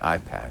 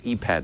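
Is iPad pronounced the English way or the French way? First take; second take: English; French. First: The word is given an English pronunciation. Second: The word is given a French pronunciation. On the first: "they say iPad" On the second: "they don't say iPad"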